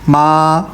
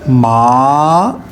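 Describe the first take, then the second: First: The pitch stays high and level throughout. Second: The pitch rises from middle to high. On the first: "five को फाइव से कनेक्ट करूंगा ना, तो ये स्ट्रेट हो जाएगी" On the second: "rising tone ... थर्ड से ... कनेक्ट करूंगा फाइव से"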